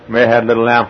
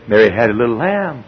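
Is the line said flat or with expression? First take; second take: flat; expressive. First: It is said in a flat, plain way. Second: It is said with lively expression. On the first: The speaker calls it wrong. "instead of saying" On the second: The speaker calls it right. "you can give your daughter expression"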